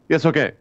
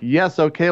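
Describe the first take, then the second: First: The phrase is said rapidly, sped up. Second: The phrase is said at a normal speed. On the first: The line is squeezed to fit the animation. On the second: The line has its natural timing.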